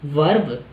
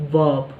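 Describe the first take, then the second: First: वर्ब with a rolled r, "verb"; वर्ब with a hard r sound; wrong pronunciation demo. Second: वर्ब with no r, an "uh" vowel: "vub"; correct pronunciation demo. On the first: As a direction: say वर्ब with a clear r, the way learners get it wrong. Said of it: "थोड़ा sound ही अजीब कर रहा है वर्ब". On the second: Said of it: "अ sound आती है यहाँ पे". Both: Shown as a demonstration.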